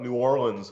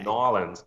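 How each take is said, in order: First: The name is said in full with the R. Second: The name is squeezed into two short syllables. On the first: This is how outsiders from the North say it. "I always thought New Orleans was the way you said it" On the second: Some people shorten it even further. "Some people say"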